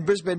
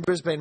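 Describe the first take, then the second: First: Brisbane as BRIZ-bin, reduced second syllable; local pronunciation. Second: Brisbane as BRIZ-bane, full long A ending; spelling pronunciation. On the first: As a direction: say Brisbane with a short -bin ending. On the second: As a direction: say Brisbane with the ending rhyming with rain. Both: Shown as a demonstration. Repeats the two pronunciations.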